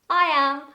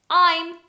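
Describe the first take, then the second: First: It is said as two full words. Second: It is said as one contracted syllable. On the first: The speaker calls it right. "You have to say with a short answer" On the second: The speaker calls it wrong. "you cannot say "I'm.""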